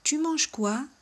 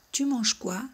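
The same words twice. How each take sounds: First: "tu manges quoi?" pitched well up with a rise; a rising intonation question on "quoi"; high rising question. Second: Said in the usual way. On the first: Shown as a demonstration. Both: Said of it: "en el caso de entonación".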